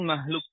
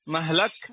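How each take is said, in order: First: The vowel after the h is u. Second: The vowel after the h is a. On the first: "wa dhammu" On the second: "yajuzu fiha al-fathu"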